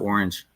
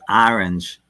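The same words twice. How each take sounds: First: It is said in a standard accent. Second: It is said in a Brooklyn accent. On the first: "instead of orange" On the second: "My mom is from Brooklyn, and she would say orange"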